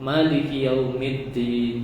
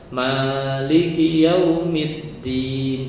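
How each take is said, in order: First: The vowel after the m is short. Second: The vowel after the m is long. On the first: The word is written without an alif. "artinya dibaca pen pendek" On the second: The word is written with an alif. "Tapi kalau dibaca panjang"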